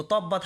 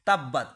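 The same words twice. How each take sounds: First: তব্বাত with a rounded "taw" start; mispronounced তব্বাত, dark o in first syllable; wrong heavy to. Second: তাব্বাত with a thin t and open "aa"; light-mouthed তাব্বাত, no rounding; correct light ta. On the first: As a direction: say তব্বাত as "tobbat". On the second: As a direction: say তাব্বাত as "tabbat", louder first beat. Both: Shown as a demonstration. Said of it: "তো তব্বাত হবে না সেখানে".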